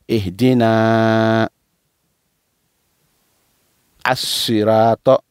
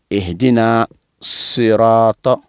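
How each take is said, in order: First: The article is said as a separate syllable. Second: The words run together without the separate article. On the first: "Là, on a décomposé" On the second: "On veut coller"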